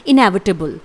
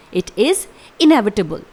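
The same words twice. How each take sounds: First: Said in the usual way. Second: Slow, syllable by syllable; teacher's careful slow model; slow clear pronunciation. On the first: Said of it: "English में one word में कहा जाता है". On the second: Shown as a demonstration. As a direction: spell it out with your voice for learners. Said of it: "इसका pronunciation एक बार फिर से सुन लीजिए".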